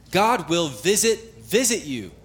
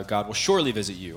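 First: "visit, visit" slow and high, each one punched; emphatic doubled VISIT. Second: Said in the usual way. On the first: Shown as a demonstration. Preacher voices Joseph's certain promise, emphatic stress on "visit, visit". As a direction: hit "visit" hard, pause, repeat it firmly. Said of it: "His faith is emphatic". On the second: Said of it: "normally it's translated in English like surely".

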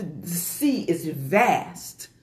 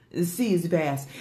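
First: Very slow savouring. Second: Said in the usual way. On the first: Real, not acted. Savouring a repeated phrase.

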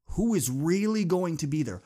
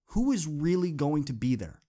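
First: Louder, pressing question; urgent challenge. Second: Said in the usual way. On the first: Real, not acted. Speaker challenging his audience, louder and urgent. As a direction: push the question home.

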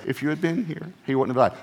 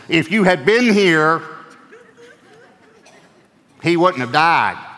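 First: Said in the usual way. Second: Loud, high, slow accusing cry; a grieving sister's loud, slow rebuke. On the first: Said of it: "We think they said". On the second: Shown as a demonstration. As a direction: throw the words at him as a reproach. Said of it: "they might have said it like this".

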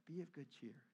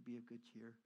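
First: Gentle comforting voice; tender, soft. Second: Softer, tender reassurance; soft and gentle. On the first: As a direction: savor the words kindly. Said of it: "I like that". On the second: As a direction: say it kindly like a comfort. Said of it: "nice when they say". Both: Retold or imitated.

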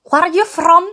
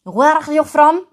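First: Put-on "Where are you from?" high and loud in an Israeli accent; first go at the stranger's Israeli accent; Israeli-accented English. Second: Put-on "Where" said with a harsh J-like throat sound, Israeli accent. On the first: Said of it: "No, no, así, a ver, con la J". ("Where are you from?" con acento israelí, alto y fuerte) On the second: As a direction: redo the stranger's Israeli accent with a guttural J. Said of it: "con la J". ("Where are you from?" con la J, acento israelí)

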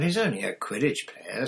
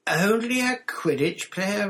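First: Brisk put-down, a little higher; dismissive. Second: High, loud, drawn-out disbelief; incredulous. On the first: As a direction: play it down to an awestruck friend. Hermione dismisses Ron's awe. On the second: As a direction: echo it back, loud and scandalised. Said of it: "as though he couldn't believe his ears". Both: A narrator's reading.

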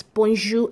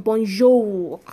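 First: Bonjour with a silent final R; correct French pronunciation. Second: Bonjour with the final R sounded; wrong pronunciation. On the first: Teacher showing learners how bonjour is pronounced, correct French pronunciation. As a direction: say bonjour as "bon-zhoo". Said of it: "pronounced as bonjour and not bonjour". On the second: Teacher showing learners how not to say bonjour, R pronounced. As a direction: say bonjour ending on a spoken R. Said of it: "and not bonjour". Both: Shown as a demonstration.

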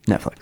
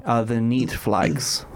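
First: Said in the usual way. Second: Netflix in a mock Russian accent, slow; fake Russian accent. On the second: Mock Russian accent recommending a show to friends. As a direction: drawl "the Neat Flags" as a bad Russian. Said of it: "I don't know what accent that was".

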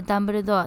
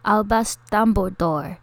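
First: ダンブルドア in flat Japanese katakana syllables; Japanese pronunciation. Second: アルバス・ダンブルドア in English, vowels dropped, DUM stressed; English pronunciation. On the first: Host shows listeners the Japanese name, katakana ダンブルドア. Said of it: "日本語でダンブルドアって言うけど". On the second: Host teaches girls the English name, American-style アルバス・ダンブルドア. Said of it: "英語では". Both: Shown as a demonstration.

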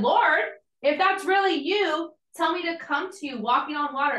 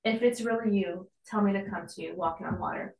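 First: Calling out to Jesus. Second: Softer and fast, a throwaway try; tentative testing. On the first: Retold or imitated. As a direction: call out boldly, half in awe. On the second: Pretend. Peter testing Jesus casually, softer and quick. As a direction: toss it off like a half-hearted test. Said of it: "okay, let me just throw, like, let's see if this works".

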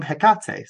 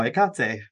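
First: Hecate said as heh-KAT-ay; speaker's own-accent pronunciation. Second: Hecate said as ih-KAT-ay; corrected pronunciation. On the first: Host adapts the correction to her accent, Hecate as heh-KAT-ay. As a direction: keep the H in Hecate, stress on KAT. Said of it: "if in my accent". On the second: Host shows the commenter she learned it, Hecate as ih-KAT-ay. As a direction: drop the H of Hecate and stress KAT. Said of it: "I can say it correctly now". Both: Shown as a demonstration.

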